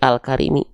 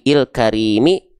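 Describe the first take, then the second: First: The first vowel is an a sound. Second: The first vowel is an i sound. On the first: The speaker calls it right. "pasti al karimi. Karena setelahnya lam" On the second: The speaker calls it wrong. "ini dibaca il il kari il karimi"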